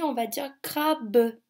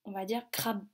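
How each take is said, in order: First: "crabe" split into two syllables, cra-be, with the final e sounded; written crabe. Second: "crabe" said as one clipped syllable, as in speech; spoken crabe. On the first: Teacher showing pupils the written syllables, cra-be. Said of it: "Quand on l'écrit". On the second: Teacher showing children the spoken word, one syllable. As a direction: say "crabe" in one beat, the oral way. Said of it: "Quand on dit à l'oral le mot crabe". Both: Shown as a demonstration.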